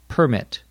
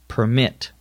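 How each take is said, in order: First: The stress is on the first syllable. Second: The stress is on the second syllable. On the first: It is a noun. "when we use it as a noun, the accent is on the first syllable" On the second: It is a verb. "When we use it as a verb, the accent is on the second syllable"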